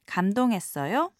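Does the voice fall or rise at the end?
rise. The voice rises at the end. It politely asks whether the listener was impressed. "To ask the question politely"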